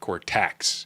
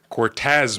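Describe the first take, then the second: First: The name ends with a 'ks' sound. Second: The name ends with a 'z' sound. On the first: The speaker calls it wrong. "you said it wrong. You said Cortex" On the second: The speaker calls it right. "Cortez makes sense"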